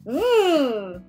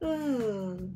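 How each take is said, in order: First: The sound is said loudly. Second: The sound is said quietly. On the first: "in a loud voice" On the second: "in a quiet voice"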